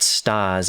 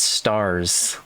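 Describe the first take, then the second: First: It is said with a New England accent. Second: It is said with a neutral accent. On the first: The speaker calls it wrong. "It's not stars" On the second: The speaker calls it right. "it's stars"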